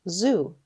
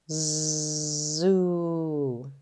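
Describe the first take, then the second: First: The word is said quickly as one unit. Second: The word is drawn out slowly, sound by sound. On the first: "Say it fast" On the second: "Tap and stretch"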